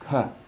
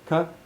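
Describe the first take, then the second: First: The vowel after the consonant is kept short. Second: The vowel after the consonant is kept short.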